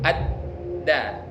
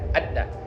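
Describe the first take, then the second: First: The syllables are separated by a clear stop. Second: The syllables run together quickly without a stop. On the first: The speaker calls it right. "karena ada sifat syiddah yang harus disempurna disempurnakan" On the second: The speaker calls it wrong. "Kan bisa saja dicepatkan. ... Salah dia"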